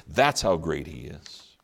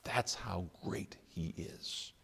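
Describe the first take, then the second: First: Said in the usual way. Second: Slow, awed breathy whisper. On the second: Acted. Preacher to congregation about Jesus, awed whisper. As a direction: breathe it like a secret in awe.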